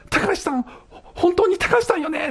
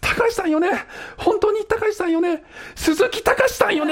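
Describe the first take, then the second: First: Mock caller, much higher and insistent; heated-up caller. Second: Heated-up caller. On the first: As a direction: press her question, getting worked up. (興奮して高い声で問い詰める女性) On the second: Retold or imitated. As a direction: push the question to its peak. (最高潮に興奮して甲高く問い詰める女性) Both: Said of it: "お互いすっごいヒートアップしてきて".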